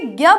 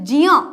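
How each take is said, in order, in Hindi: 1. अक्षर की शुरुआत g जैसी ध्वनि से होती है। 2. अक्षर की शुरुआत j की ध्वनि से होती है। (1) "हम इसे ज्ञ बोलते हैं" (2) "इसका शुद्ध उच्चारण जो है वो है ज"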